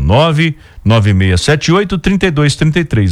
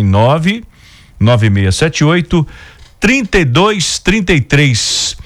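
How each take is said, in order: First: It is said at normal speed. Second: It is said very slowly.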